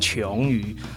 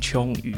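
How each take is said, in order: First: The first syllable has a rising second tone. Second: The first syllable has a non-rising tone. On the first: This is how most people say the name. "大家都念二声琼瑜啊" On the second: This is how the name's owner habitually says it. "我是自己是习惯念琼瑜啊"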